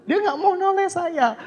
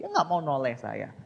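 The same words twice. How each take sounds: First: "Dia nggak mau noleh saya" much higher and louder; emphatic retelling. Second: Said in the usual way. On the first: Real, not acted. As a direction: stress the repeat with exasperated emphasis.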